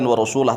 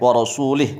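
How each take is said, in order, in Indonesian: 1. Vokal terakhir adalah bunyi a. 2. Vokal terakhir adalah bunyi i. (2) "Bil jarri, dengan membacanya jar"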